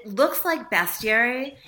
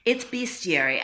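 First: "bestiary" said best-iary, with a short e; spelling pronunciation. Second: "bestiary" said beast-iary, with a long ee; correct pronunciation. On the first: Writer showing how the spelling misleads, short-e pronunciation. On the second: Writer correcting the host on the word, long-ee pronunciation. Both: Shown as a demonstration.

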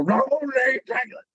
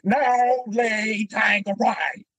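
First: High, exaggerated Southern accent; mocking Southern accent. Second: Put-on high, very slow, shouted Southern accent; frustrated Southern accent. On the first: Stand-ins mocking Rickman's line, high exaggerated Southern accent. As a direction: ham up the Southern accent to mock him. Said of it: "the thing we made fun of him with". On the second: Rickman fed up after many takes, shouted slow Southern accent. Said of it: "he's getting frustrated".

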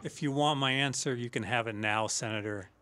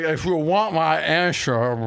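First: Low, soft, measured mob boss; quiet menace, lower and softer; Michael Corleone impression. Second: Put-on slow, slurred drunk mob boss; drunk Michael Corleone. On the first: Shown as a demonstration. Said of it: "do Michael talking to the Senator Geary". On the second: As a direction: drag the words like a drunk don. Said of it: "that sounded like a drunk Michael".

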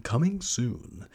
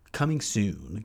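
First: Slow, drawn-out movie-trailer tease; teaser. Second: Said in the usual way. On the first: Acted. Host teasing listeners about upcoming projects, slow trailer tease. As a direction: stretch it out like an announcement.

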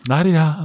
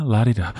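First: Mock la-di-da. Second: Said in the usual way. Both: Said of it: "that kind of la-di-da sensibility".

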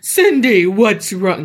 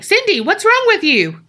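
First: Hammed-up demon calling her name. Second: High, loudish mock concern; high-pitched imitation calling to her. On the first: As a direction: do a put-on demonic voice. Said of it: "No, that sounds like a demon". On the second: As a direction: voice him comically high. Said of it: "he got a deeper voice that time".

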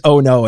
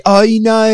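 First: Said in the usual way. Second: High, loud Australian "Oh, no"; Australian accent. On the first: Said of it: "all I know how to say is". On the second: Shown as a demonstration. Showing how he turns oh no Australian, drawn-out Australian accent. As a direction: stretch "Oh, no" into exaggerated Australian vowels. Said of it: "And you say".

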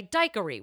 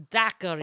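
First: Daiquiri said DIKE-uh-ree; long-i daiquiri. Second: Daiquiri said DACK-uh-ree; short-a daiquiri. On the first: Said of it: "as some people might say". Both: Shown as a demonstration.

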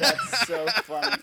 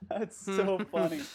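First: Laughing. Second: Said in the usual way. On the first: Real, not acted. Laughing at the blooper.

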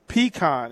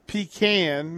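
First: "Pecan" as PEE-kahn, open ah; pronunciation PEE-kahn. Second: "pecan" as PEE-can, vowel of "cat"; pronunciation PEE-can. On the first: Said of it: "is what we". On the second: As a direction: say "pecan" ending like tin can. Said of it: "Matt says pecan". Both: Shown as a demonstration.

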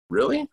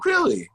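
First: Put-on high, hopeful squeak of a kid; imitating a thrilled son; eager kid surprise. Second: High, exaggerated dad disbelief; hammed-up astonishment from the dad; mock surprise. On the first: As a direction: pop up in pitch like a delighted child. Kids hearing games can return. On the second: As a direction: feign shock, sky-high. Dad mocking kids' easy agreement.

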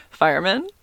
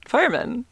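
First: "Fireman?" tried out with a rising question tune. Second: "Fireman." said high and falling, as a final answer; settled fireman. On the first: Trying to say "Fireman?" right, unsure and rising. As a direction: test the word "Fireman?" as if asking, pitch going up. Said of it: "I don't know why I can't say that word". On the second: Correcting herself on "Fireman.", ending it flat and sure. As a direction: land "Fireman." firmly with a falling tune. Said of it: "That sounds like I'm saying more than one". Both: Shown as a demonstration.

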